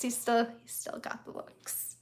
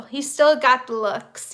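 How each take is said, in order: First: Soft, slower repeat under the breath; a hushed, dreamy repeat; quiet aside. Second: Said in the usual way. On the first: Real, not acted. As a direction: murmur it again as a fond aside.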